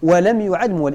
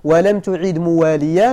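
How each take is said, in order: First: يعد موال in short form, "yu'ad muwaal"; passive with ya. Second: تعد مواليا in full, "tu'id muwaaliyan"; active with ta. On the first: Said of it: "ولو قرئ بالتحتية". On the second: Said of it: "لا وجه إلا هذه القراءة". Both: Shown as a demonstration.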